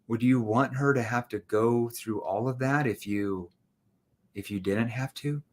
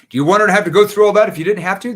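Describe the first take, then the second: First: It is said in a gentle, concerned tone. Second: It is said in a mean, aggressive tone. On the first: The speaker cares about the person's situation. The speaker calls it right. "Now I need to show concern. Showing concern, empathy" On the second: The speaker is pressuring the person. The speaker calls it wrong. "That's mean. That's aggressive"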